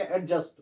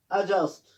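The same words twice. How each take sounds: First: एडजस्ट with an audible D before J; wrongly sounded D. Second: एडजस्ट with no D, "a-just"; silent D. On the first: Teacher shows a wrong reading, D sounded in एडजस्ट. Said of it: "that is wrong". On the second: Teacher gives the correction, D silent in एडजस्ट. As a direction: say एडजस्ट, leaving out the D. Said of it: "डी इसमें silent रहता है". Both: Shown as a demonstration.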